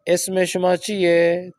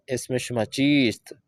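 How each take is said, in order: First: "چیئے" said as chie with no final st, slow; the colloquial "اسم شما چیئے" read out carefully; spoken Persian form. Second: "چیست" said in full as cheest with the final st, slow; written Persian form. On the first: Teacher gives students a colloquial sentence to convert, slow chie. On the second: Teacher gives students the written original, slow full cheest. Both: Shown as a demonstration. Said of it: "تو کیا آئے گا اصل میں".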